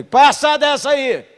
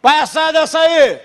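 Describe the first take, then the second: First: High, slow yelled command; shout. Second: Even higher, slow full yell; louder shout. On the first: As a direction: bellow it across the room. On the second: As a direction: bellow the same order harder. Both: Retold or imitated. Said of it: "Gritei duas vezes".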